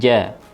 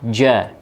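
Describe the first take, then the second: First: The j is clean without excessive hissing. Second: The j has a strong, excessive hissing sound. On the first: The speaker calls it right. "tapi ja" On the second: The speaker calls it wrong. "jangan sampai ada suara desis atau becek ya, yang berlebihan"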